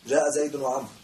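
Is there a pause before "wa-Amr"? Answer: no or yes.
no. The phrase runs on without a pause. Both people came. The speaker calls it right. "عطف عطف دائما موصول"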